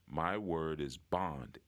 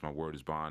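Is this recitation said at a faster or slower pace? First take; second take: slower; faster. First: It is recited at a slower pace. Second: It is recited at a quicker pace.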